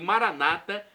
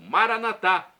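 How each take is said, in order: First: The stress falls on the second-to-last syllable. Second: The stress falls on the last syllable. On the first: This is how evangelical Protestants say it. "como dizem nossos irmãos evangélicos" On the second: This is how Catholics say it. "como dizem os católicos"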